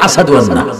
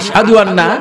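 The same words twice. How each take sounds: First: The word ashhadu is said with an 's' sound. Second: The word ashhadu is said with an 'sh' sound. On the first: "তিনি সিন বলতে পারতো" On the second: "শিন বলতে পারতো না"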